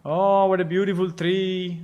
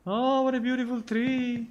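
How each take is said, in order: First: Said in the usual way. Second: Much higher, dreamy and marveling; high wonder voice. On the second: Shown as a demonstration. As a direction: say it like you're in awe of a fairy tale. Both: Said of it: "repeats with new delivery".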